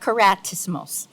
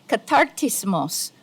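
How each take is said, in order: First: The name begins with the syllables kara. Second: The name begins with the syllables katar. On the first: The speaker calls it wrong. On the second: The speaker calls it right. "It should actually be, just as my sister here pronounced it very correctly"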